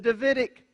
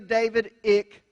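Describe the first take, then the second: First: The name and suffix are blended into one word. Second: The name David is said intact, then -ic added. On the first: The speaker calls it right. "It's the Davidic covenant" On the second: The speaker calls it wrong. "We don't say David-ic covenant"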